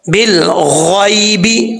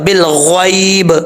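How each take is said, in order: First: The phrase ends on a vowel after the b. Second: The phrase ends on a bare b consonant. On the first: The reader carries on without stopping. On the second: The reader stops at this point.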